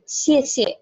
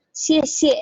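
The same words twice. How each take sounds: First: Second "xie" light and short; right neutral tone. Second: Both "xie" full, slow and higher; wrong full tone. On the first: Teacher models light final syllable. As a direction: clip the last "xie" quick and light. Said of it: "tapi xie xie". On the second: Teacher shows the wrong version. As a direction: give the second "xie" full weight, the wrong way. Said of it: "bukan xie xie". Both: Shown as a demonstration.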